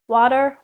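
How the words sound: The word is said with an American accent. "the textbook interactive C D is saying water like water"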